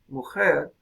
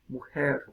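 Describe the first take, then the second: First: The middle consonant is a harsh throat friction. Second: The middle consonant is a soft breathy aspiration. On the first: "se echa para atrás y se hace velar" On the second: "una aspiración más suave"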